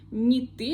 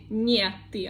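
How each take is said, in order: First: Не is joined to the next word, unstressed. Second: Не is said apart, as its own word. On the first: The speaker calls it right. "I say не ты" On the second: The speaker calls it wrong. "I don't say не ты"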